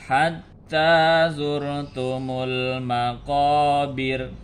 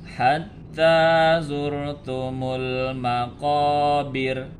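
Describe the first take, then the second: The two takes are said the same way.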